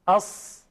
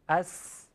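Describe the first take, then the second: First: The s sound is heavy and thick. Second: The s sound is light and thin. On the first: "فقط صدا رو درشت کردیم" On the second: "بگید اس با سین"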